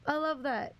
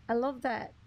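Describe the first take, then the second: No difference in how they are said.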